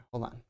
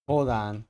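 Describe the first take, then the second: First: Said in the usual way. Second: Said again much louder; a firm, loud hold on. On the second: Shown as a demonstration. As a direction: repeat it with real volume.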